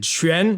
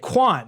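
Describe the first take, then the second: First: The name starts with a ch-like sound. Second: The name starts with a kw sound. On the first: This is the name's real pronunciation. The speaker calls it right. "just the pronunciation is really difficult" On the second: This is how people read the spelling. The speaker calls it wrong. "it's Q U A N, so people are gonna say Quan"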